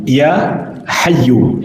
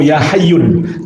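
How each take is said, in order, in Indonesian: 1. Nama itu diakhiri dengan vokal, tidak ada n. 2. Nama itu diakhiri dengan bunyi n tambahan. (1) "tapi Ya Hayyu" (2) "jangan ... Ya Hayyun"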